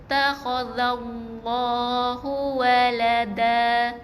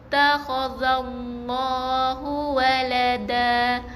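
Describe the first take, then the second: Both takes have the same delivery.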